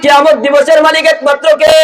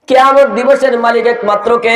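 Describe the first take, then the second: First: The question is shouted loudly. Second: The question is asked at normal volume.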